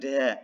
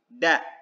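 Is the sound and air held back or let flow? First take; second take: flowing; held back. First: The sound and air flow out freely. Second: The sound and air are held back. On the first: The speaker calls it wrong. "Jadi bukan da" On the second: The speaker calls it right. "cuman tertahan suaranya dan udaranya"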